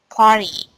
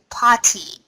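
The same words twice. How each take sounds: First: The t sound is dropped. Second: The t sound is clearly pronounced. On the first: The speaker calls it right. "Better, party. ... we pronounce it party without sound t" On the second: The speaker calls it wrong. "you just pronounce it with party"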